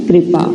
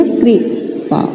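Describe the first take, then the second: First: Said in the usual way. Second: कृपा drawn out very slowly in a breathy voiceless whisper, syllable by syllable; slow sounded-out kripa. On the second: Shown as a demonstration. Teacher to children, slowly sounding out कृपा in a whisper. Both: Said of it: "तो क्या हो गया?".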